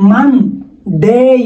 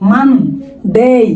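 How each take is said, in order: First: The first vowel is an open 'a' sound. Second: The same.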